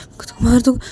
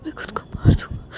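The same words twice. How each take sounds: First: Said in the usual way. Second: 1 whispered threat. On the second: Acted.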